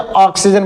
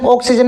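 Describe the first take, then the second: First: The first vowel is thick and heavy. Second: The first vowel is thin and light. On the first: The speaker calls it right. "ऑक्सीजन बोला जाता है ना" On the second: The speaker calls it wrong. "ऑक्सीजन नहीं बोलते"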